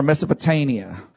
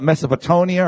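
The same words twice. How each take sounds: First: Mesopotamia as "Mesopo-TAIN-ia"; pronounced with TAIN. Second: Mesopotamia as "Mesopo-TONE-ia"; pronounced with TONE. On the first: Preacher offering Texas's second option, Mesopotamia with TAIN. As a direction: give Mesopotamia a long A where the stress falls. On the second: Preacher offering Texas's first option, Mesopotamia with TONE. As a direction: give Mesopotamia a long O where the stress falls. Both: Shown as a demonstration. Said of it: "you can call it".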